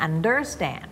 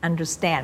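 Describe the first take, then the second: First: "understand" with the weight on "un"; wrong stress on UNDER. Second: "understand" with light "under", strong "stand"; stress on STAND. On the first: Teacher showing the mistake, "understand" stressed on "under". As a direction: punch the first syllable of "understand". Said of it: "ไม่ใช่ understand". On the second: Teacher showing the right stress, "understand" stressed on "stand". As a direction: land the stress on last syllable of "understand". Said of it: "understand ไม่ใช่ understand". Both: Shown as a demonstration.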